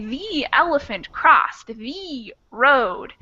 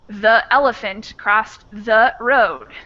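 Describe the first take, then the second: First: Each word is said fully and emphasized separately. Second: Vowels are reduced and the words run together. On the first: It is clear speech for a beginner. "I'm going to emphasize each word" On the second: It is casual talk with family. "if I'm not thinking too hard about it, if I'm talking with my sister"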